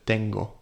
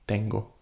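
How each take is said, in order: First: The T is soft, almost like a D. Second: The same.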